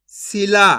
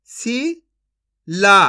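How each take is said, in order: First: Said in the usual way. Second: Shila very slowly split as "शी ... ला"; syllable by syllable. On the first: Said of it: "इनको आपस में लाके पढ़ देना है". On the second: Shown as a demonstration. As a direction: sound out Shila with a long gap inside. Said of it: "एक अक्षर का उच्चारण करके". (शिला को तोड़कर, धीरे-धीरे)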